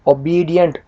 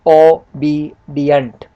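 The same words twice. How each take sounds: First: Said in the usual way. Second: ओबीडिएंट slow and loud, "o, bee, dient" in separate beats; ओबीडिएंट broken up syllable by syllable; split into syllables. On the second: Shown as a demonstration. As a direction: sound out ओबीडिएंट piece by piece, slowly. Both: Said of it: "देखिए मैंने अलग किया हुआ है".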